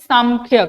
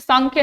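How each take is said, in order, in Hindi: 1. 'kh' से पहले का नासिक्य 'm' जैसा सुनाई देता है। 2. 'kh' से पहले का नासिक्य 'n' जैसा सुनाई देता है। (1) "तो न बिकम्स म" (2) "सांख्य नहीं"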